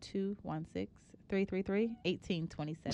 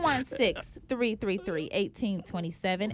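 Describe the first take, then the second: First: It is said in a flat, plain voice. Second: It is said in an excited, lively voice.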